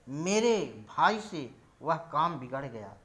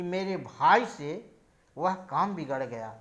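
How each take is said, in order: First: The stress falls on the word मेरे. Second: The stress falls on the word भाई. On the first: "यदि इस वाक्य को मेरे शब्द पर बलाघात करते हुए बोला जाए" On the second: "यदि इस वाक्य में भाई पर बल देकर बोला जाए"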